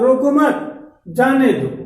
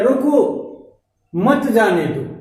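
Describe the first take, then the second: First: There is a pause after मत. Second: There is a pause after रोको.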